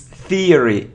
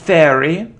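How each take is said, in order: First: The first syllable sounds like ear. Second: The first syllable does not sound like ear. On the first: The speaker calls it right. "Ear. ... Like ear" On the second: The speaker calls it wrong. "it isn't theory"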